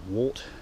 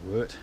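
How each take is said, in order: First: The vowel sounds like the one in 'short'. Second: The vowel sounds like the one in 'hurt'. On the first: Other people say it this way. "Some people pronounce it wart" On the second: This is the speaker's own way of saying it. "I pronounce it wort"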